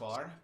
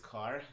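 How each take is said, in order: First: The word begins with a ch sound. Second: The word begins with a k sound. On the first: This is how some other people say it. "some people call this char" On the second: This is the speaker's own habitual way. "but I call this car. That's my habit"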